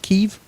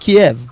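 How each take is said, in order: First: The city name is said the Ukrainian way. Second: The city name is said the American way. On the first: "You guys pronounce it as Kiev" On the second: "I always said Kiev"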